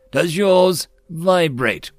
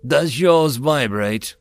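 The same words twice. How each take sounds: First: Slow, louder, stress on "yours"; repeated, louder. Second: Slow, measured "Does yours vibrate?"; deadpan slow question. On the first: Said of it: "I repeated". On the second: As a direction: ask it flatly and slowly. Deadpan question, then repeated. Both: Acted.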